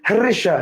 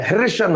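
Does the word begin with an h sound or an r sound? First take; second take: h sound; h sound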